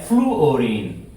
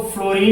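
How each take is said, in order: First: "फ्लूओरीन" in three syllables, floo-o-reen; correct full form. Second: "फ्लोरीन" in two syllables, flo-reen; common short form. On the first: Teacher gives pupils the correct word, "फ्लूओरीन" as floo-o-reen. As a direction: sound both oo and o in "फ्लूओरीन". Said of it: "लेकिन शुद्ध है, शब्द है फ्लूओरीन". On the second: Teacher shows pupils the form some people write, "फ्लोरीन" as flo-reen. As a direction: say "फ्लोरीन" with a single o after fl, no oo. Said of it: "कुछ लोग इसको फ्लोरीन लिख लेते हैं". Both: Shown as a demonstration.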